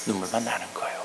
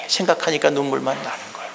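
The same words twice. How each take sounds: First: Tearful hushed echo. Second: Said in the usual way. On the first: Shown as a demonstration. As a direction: repeat it softly as if near tears. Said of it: "echo repeat". (울먹이듯 작게 반복) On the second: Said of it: "repeated softly".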